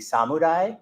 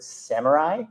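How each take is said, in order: First: The word is said with a Japanese pronunciation. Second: The word is said with an American English pronunciation. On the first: "if we were using Japanese, it would be samurai" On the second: "the westernized or Americanized version of the pronunciation"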